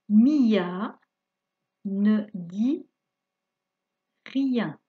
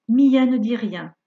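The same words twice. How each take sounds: First: It is read at a slow pace. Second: It is read at a faster pace.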